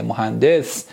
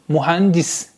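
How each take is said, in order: First: "مهندس" as mohandes, ending in -des; Persian pronunciation. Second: "مهندس" as mühendis, ending in -dis; Turkish pronunciation. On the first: Teacher reminding students of the Persian word, "مهندس" as mohandes. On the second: Teacher modelling the Turkish word for students, "مهندس" ending -dis. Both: Shown as a demonstration.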